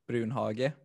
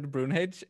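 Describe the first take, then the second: First: The name is pronounced with Swedish sounds. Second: The name is pronounced with English sounds. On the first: This is the family's original pronunciation. "in Swedish we used to say Brunhage" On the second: This is the pronunciation most people now use. "everybody has said Brunhage everywhere"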